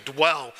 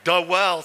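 First: "dwell" as one plain syllable; D straight into W in "dwell". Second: "Dwell" stretched to "doh-WELL"; slow two-beat "Dwell" with a vowel after D; preacherly "Dwell", split in two; preacher's dwell. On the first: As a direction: unsplit "dwell", a single beat. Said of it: "nothing between the D and the W". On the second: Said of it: "it's just my preacher voice". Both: Shown as a demonstration.

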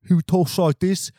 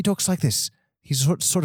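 First: Broad mock English accent; comic broad English accent; first English voice type. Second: Higher mock English accent; higher-pitched comic English voice; second English voice type. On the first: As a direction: put on a hammed-up British guy. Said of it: "two types of voices in England". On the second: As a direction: put on the other British guy, higher. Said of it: "And then the other guy".

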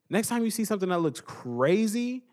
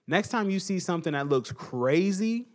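The two takes are said the same way.

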